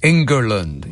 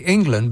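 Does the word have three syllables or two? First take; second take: three; two. First: The word is said with three syllables. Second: The word is said with two syllables. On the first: The speaker calls it right. "that's how you pronounce it" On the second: The speaker calls it wrong. "You say England"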